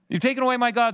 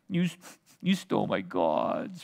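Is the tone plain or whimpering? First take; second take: plain; whimpering. First: It is read in a plain tone. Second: It is said in a whimpering, sniveling tone.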